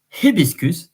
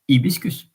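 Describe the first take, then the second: First: The word begins with an audible H sound. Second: The word begins with no H sound. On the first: "in English you pronounce the H" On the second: "In Latin and in French, you don't pronounce the H"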